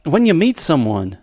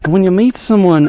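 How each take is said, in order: First: Put-on Australian accent sliding into Southern; slipping into Southern. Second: Hammed-up Australian gentleman in love; Australian accent. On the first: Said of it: "now I'm slipping into Southern". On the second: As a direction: pick the Australian accent back up. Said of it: "Australian it is".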